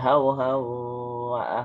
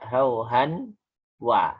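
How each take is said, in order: First: The n merges into a doubled nasal w. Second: The n sound is pronounced clearly before w. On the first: The speaker calls it right. "Tapi hau hau wa ahwaha" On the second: The speaker calls it wrong. "Jadi tidak dibaca hauhan wa"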